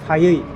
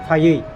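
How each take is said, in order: No difference in how they are said.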